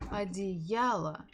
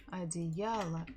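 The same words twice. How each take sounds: First: Одеяло slowly, stress on я; slow stressed demo. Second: Said in the usual way. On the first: Shown as a demonstration. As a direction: draw out Одеяло, leaning on я. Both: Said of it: "the stress falls on я".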